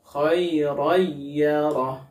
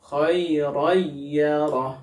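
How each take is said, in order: First: The n merges into y with little nasal hum. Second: The same.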